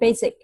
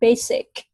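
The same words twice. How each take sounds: First: The middle consonant sounds like a z. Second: The middle consonant sounds like an s. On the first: The speaker calls it wrong. "It's not basic" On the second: The speaker calls it right. "s s sound"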